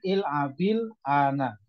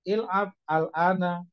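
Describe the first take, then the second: First: The words run together with a linking vowel. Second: The words are cut apart with a break. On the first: "Ini kalau memang niatnya itu adalah diwasol" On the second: "Kalau niatnya bacanya itu diputus"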